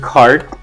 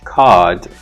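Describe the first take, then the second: First: The r after the vowel is pronounced. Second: The r after the vowel is dropped.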